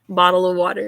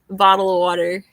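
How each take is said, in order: First: It is said in a French accent. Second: It is said in a Californian accent. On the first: "I suppose I could do French" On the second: "this is my California accent"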